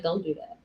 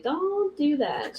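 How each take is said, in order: First: Low, soft, quick imitation of mom; quiet warning. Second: "Don't do that" stretched slow and high; drawn-out warning. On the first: Mom telling aunt not to, quiet warning. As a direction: drop it down as a muted warning. Mom's warning retold, first take. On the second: Retold or imitated. Mom telling aunt "Don't do that", drawn-out warning. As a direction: draw out "Don't" on a higher pitch.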